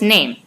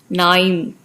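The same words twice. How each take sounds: First: The word is said with the modern vowel. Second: The word is said with an older vowel. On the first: This is the Modern English pronunciation. "Now it's name" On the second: This is the older Middle English pronunciation. "Before it was name, name, just something like this"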